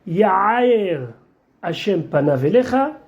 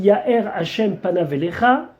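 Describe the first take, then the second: First: The middle of Ya'er has a throaty guttural sound. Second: The middle of Ya'er has a silent glottal sound. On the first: God will pour out his anger upon you. The speaker calls it wrong. "confondre le Aleph et le Aïn" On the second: God will shine his face upon you. The speaker calls it right. "Ya'er c'est Yud Aleph Resh"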